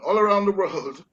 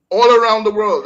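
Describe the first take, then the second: First: Said in the usual way. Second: All around the world punched loud and high; emphatic. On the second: Real, not acted. Stressing a point on air.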